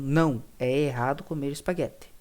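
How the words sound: There is a pause after the first word. Eating spaghetti is wrong. "Se eu falo não, vírgula, é errado comer espaguete, eu estou enfatizando que é errado"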